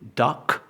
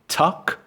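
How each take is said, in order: First: It starts with a voiced English d sound. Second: It starts with a t followed by a puff of air. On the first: "So it's not duck" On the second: "It's not tuck"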